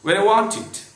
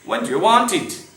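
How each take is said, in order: First: The word 'do' is dropped out entirely. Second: The word 'do' is pronounced in full. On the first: The speaker calls it right. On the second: The speaker calls it wrong.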